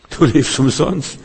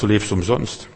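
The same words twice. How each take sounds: First: Du lebst umsonst repeated higher and slower; emphatic repeat. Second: Said in the usual way. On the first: Shown as a demonstration. Preacher repeats it to the congregation, raised and slow. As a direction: lift Du lebst umsonst up high and slow it down for impact.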